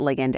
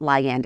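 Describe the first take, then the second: First: It is said the way chemists pronounce it. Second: It is said the way biologists pronounce it. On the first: "chemists pronounce it ligand" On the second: "Biologists pronounce it ligand"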